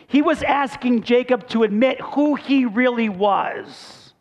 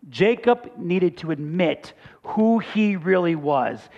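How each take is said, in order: First: Higher and slow, every word pressed, stress on "was"; emphatic preaching. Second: Slow and level, stress on "who"; calm restatement. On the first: Pastor driving home Jacob's confession, slow and emphatic. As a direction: lean hard on "who he really was". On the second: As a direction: say it plainly, weight on "who". Same point said calmly. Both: Acted.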